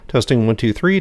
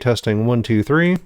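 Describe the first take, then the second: First: Background noise can be heard behind the voice. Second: Background noise is filtered out of the voice. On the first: "this is without noise suppression" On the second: "this is with noise suppression on"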